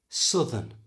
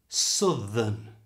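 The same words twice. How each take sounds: First: It is said at normal conversational speed. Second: It is said slowly with a strong th. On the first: "And now at normal speed" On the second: "First slowly"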